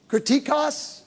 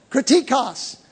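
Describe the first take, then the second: First: KRITIKOS said tentatively, as a question; unsure pronunciation. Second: Said in the usual way. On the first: Real, not acted. Preacher checking a Greek word with his friend, unsure. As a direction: try Kritikos softly, unsure it is right. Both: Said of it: "Am I saying it right".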